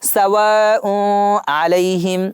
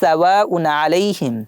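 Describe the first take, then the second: First: The n sound is nasalized and blurred. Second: The n sound is pronounced clearly. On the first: The speaker calls it wrong. "আমি যদি এইভাবে বলি সাওয়াউ আলাইহিম তাহলে কিন্তু গুণনা হবে" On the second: The speaker calls it right. "এখানে আমাদের স্পষ্ট করে পড়তে হবে"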